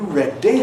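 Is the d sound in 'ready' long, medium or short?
long. The d sound is held long and slow. It sounds like Welsh English. "That's a slow D. That's characteristic of Welsh English"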